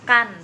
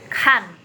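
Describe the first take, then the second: First: The k is said without a puff of breath. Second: The k is said with a puff of breath. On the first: The speaker calls it wrong. "dibacanya bukan kan ya" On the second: The speaker calls it right. "tapi kan. Jadi ada nafasnya"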